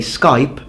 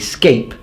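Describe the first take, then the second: First: The vowel is the modern English diphthong. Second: The vowel is an older Scottish-style sound. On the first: This is how most English speakers say it now. "some people don't say Skype" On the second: This keeps an older pronunciation still heard in some Scottish areas. "but they say scape"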